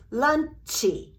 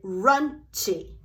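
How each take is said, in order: First: Slow "lunchy" with a vowel on the end; "lunchy" in separated beats; Japanese pronunciation. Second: "runchy" starting with an R sound; "runchy" with R and final vowel; L turned to R. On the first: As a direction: add "ee" after the ch in "lunchy". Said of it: "trying to pronounce it". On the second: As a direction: swap the L for an R in "runchy". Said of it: "turn that L into an R". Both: Shown as a demonstration.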